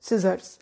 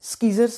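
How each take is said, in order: First: No k sound follows the s. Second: A k sound follows the s. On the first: The speaker calls it right. "Correct pronunciation" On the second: The speaker calls it wrong. "स्कीजर्स नहीं बोलना"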